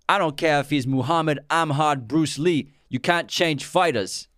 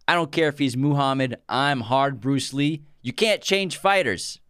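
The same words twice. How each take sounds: First: It is spoken in a put-on British accent. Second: It is spoken in the speaker's normal accent.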